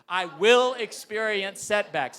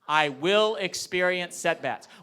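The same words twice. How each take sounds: First: It is said with great energy and gusto. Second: It is said with plain, ordinary energy.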